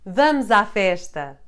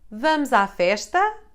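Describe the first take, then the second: First: It is said as an exclamation. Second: It is said as a question.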